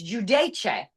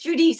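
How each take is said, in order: First: The name is said with an Italian pronunciation. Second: The name is said with an American pronunciation. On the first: The speaker calls it right. "no, it's not. It's it's Giudice" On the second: The speaker calls it wrong. "people are like, no, no, it's Giudice"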